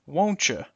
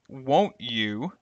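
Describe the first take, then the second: First: The T and Y merge into a ch. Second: The T and Y stay separate sounds.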